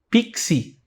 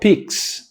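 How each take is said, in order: First: The word ends with an added i vowel. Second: The word ends on the X consonant. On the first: This is how people from Rio say it. "Coloca um i no final do x" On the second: This is how people from Belo Horizonte say it. "Aqui em Belo Horizonte a gente fala"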